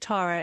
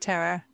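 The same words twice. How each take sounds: First: The name is said with a British pronunciation. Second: The name is said with an American pronunciation. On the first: "We say Tara in England" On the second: "You guys say Tara"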